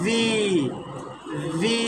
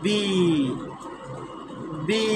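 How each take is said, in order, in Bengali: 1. উপরের দাঁত নিচের ঠোঁটের উপর রেখে এই ধ্বনি তৈরি হয়। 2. দুই ঠোঁট বন্ধ করে এই ধ্বনি তৈরি হয়। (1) "উপরের দাঁত নিচের ঠোঁট" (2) "দুই ঠোঁট বন্ধ করে প্রনাউন্স করতে হয়"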